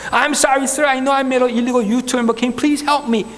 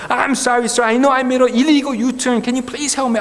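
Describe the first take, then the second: First: Slow, careful broken English to a policeman; nervous speaker pleading slowly in English; halting slow English. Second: Slow, careful broken English said again; repeating the plea. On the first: Driver pleading with a policeman, slow halting English. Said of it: "영어로 그냥 막, 막 했죠". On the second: Driver repeating his plea to the second policeman, slow English. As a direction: plead with the officer once more, slowly. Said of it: "똑같은 말을 반복할 수밖에 없죠". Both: Retold or imitated.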